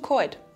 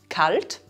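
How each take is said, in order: First: The L is replaced by an oi vowel. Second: The L is clearly pronounced after the vowel. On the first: "wird zu" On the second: "wird zu"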